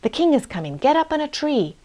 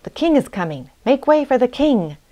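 First: Urgent mother's cry, climbing higher; mildly alarmed call to the children. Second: Warning call, rising higher on the second sentence; building cry to clear the way. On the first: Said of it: "and cried out". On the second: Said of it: "he called out". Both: A narrator's reading.

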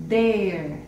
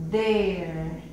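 First: "There" with force and a falling tune; accented There. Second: Said in the usual way. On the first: Shown as a demonstration. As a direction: push and stretch "There". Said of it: "tuviera un acento, lo hiciéramos más fuerza". ("There" con fuerza, alargado) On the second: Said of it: "solamente una E larga".

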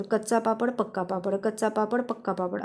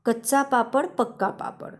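First: Quick, softer run-through, repeated without a break; fast tongue twister. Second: Said in the usual way. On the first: Shown as a demonstration. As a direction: rattle it off quickly and lightly. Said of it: "असं fast म्हणायचं". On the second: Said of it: "आता हे fast जर म्हणायचं ठरवलं तर".

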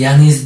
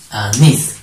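First: Said in the usual way. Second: "Anís" split, heavy on -nís; stress on last syllable. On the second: Shown as a demonstration. Teacher shows pupils the last syllable, stressing -nís in "Anís". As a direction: hold back the A, then stress NÍS in "Anís". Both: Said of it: "¿Cómo sería?".

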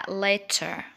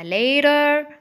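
First: "later" with a true T; British LATER. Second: "later" with a tapped D-like T; American LATER. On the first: Teacher repeating British "later", clear-T pronunciation. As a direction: sound the T crisply in "later". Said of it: "في البريتش أكسنت هتقولها". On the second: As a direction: say "later" like "lader". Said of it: "في الأمريكان أكسنت". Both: Shown as a demonstration.

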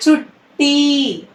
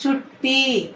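First: చుట్టి said very slowly, the ట్ట held long and pressed; చుట్టి drawn out slowly, double ట్ట pressed; slow doubled letter. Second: చుట్టి said at normal speed and softer, ట్ట still doubled; చుట్టి once more, lighter and softer; quick softer repeat. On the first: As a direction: stretch out చుట్టి, leaning hard on ట్ట. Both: Shown as a demonstration. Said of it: "ఒత్తుగా మారిన అక్షరానికి".

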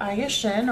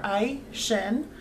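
First: Aye said the Spanish way, in two syllables; Spanish pronunciation. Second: Ai said as one syllable, like "eye"; alternative pronunciation. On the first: Dedicating the video to a viewer, Spanish pronunciation. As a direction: say Aye Shin with Spanish sounds. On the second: Offering the viewer another reading of the name, alternative pronunciation. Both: Shown as a demonstration. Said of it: "pronouncing it the Spanish way".

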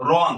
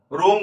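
First: রং with an open "aw", as "rawng"; রং said slightly apart, with an open অ; natural-vowel demo. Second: রং said with a closed "o", as "rong" with an "oh"; রং mispronounced to sound like "rohng"; wrong-vowel demo. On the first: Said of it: "আমরা কিন্তু বলি". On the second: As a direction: round the vowel of রং into ও. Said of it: "রং বলি না". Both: Shown as a demonstration.

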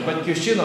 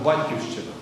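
First: Батьківщина with the stress late, on "щи"; stress on third syllable. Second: Батьківщина with the stress early, on "бать"; stress on first syllable. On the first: Preacher showing listeners one stress of the word, Батьківщина stressed on "щи". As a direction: lean on "щи" in Батьківщина. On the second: Preacher showing listeners the other stress of the word, батьківщина stressed on "бать". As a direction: hit "бать" first, let the rest of батьківщина fall. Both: Shown as a demonstration. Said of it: "Наголос ще міняє".

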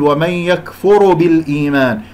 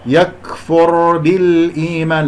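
First: "يكفر بالإيمان" with r opened into ru; wrong vowelled ra. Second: "يكفر بالإيمان" with r held vowelless; correct still ra. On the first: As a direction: add a u after the r of "يكفر", as a mistake. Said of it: "الراء ساكنة لا تضمها". (ضم خاطئ لراء "يكفر") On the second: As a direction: slowly join a still r straight to b in "يكفر بالإيمان". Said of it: "هنا الراء ساكنة لا تضمها". (راء ساكنة في "يكفر بالإيمان") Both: Shown as a demonstration.

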